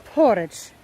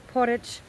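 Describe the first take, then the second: First: Porridge said loud and sure, stress on the first syllable; corrected pronunciation. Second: Said in the usual way. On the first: Shown as a demonstration. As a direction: repeat Porridge back firmly after the local. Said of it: "Porridge, yeah".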